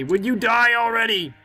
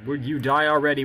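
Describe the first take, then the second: First: Exasperated yell. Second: Said in the usual way. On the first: Real, not acted. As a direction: demand it in frustration. Impatient at a living king.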